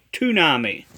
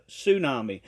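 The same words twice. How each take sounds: First: "tsunami" begun with a hard t, too-NAH-mee; mispronounced tsunami. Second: "tsunami" begun with an s, soo-NAH-mee; correct pronunciation. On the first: Retold or imitated. Critic quotes the prophet's error, "tsunami" with a t sound. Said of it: "He says tsunami instead of tsunami". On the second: Shown as a demonstration. Critic gives the correction, "tsunami" with an s sound. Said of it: "instead of tsunami".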